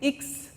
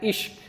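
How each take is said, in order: First: It ends with a 'ks' sound. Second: It ends with a 'shk' sound. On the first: The speaker calls it right. "It is X" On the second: The speaker calls it wrong. "students mispronounce it like ishq"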